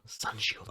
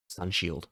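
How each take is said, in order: First: Softer unvoiced whisper; whispered again. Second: Breathy whisper of the name. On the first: Reader repeating the name in a hush. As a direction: breathe it out under your breath. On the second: Reader whispering the attack name. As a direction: whisper it like a secret. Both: Shown as a demonstration.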